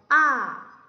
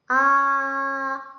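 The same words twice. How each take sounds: First: The pitch falls from high to low. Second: The pitch stays high and level. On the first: "위에서 아래로 떨어지는 소리예요" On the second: "아 하면 그 일성이고요"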